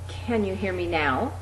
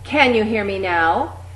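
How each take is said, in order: First: It is said at its softest level. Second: It is said clearly loud and projected. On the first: "getting progressively louder each time" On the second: "getting progressively louder each time"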